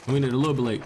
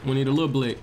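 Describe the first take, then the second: No difference in how they are said.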